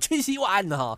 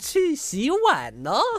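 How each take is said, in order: First: It is said as a blunt command. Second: It is said in a sweet, gentle tone.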